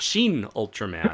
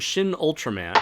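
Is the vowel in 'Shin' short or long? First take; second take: long; short. First: The first word has a long 'ee' vowel. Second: The first word has a short 'i' vowel.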